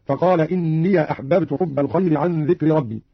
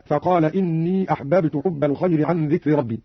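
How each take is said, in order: First: "إني" as inniya before "أحببت"; fatha on ya. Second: Said in the usual way. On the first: Shown as a demonstration. Teacher demonstrating Qalun, "إني" read inniya in connected recitation. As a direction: open the end of "إني" to a short ya. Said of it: "فتح قالون الياء وصلا". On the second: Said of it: "فتح قالون الياء".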